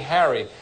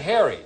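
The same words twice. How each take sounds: First: It is said with a New York pronunciation. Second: It is said with a California pronunciation. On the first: "like in New York, you say Harry" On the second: "Out here, we say Harry"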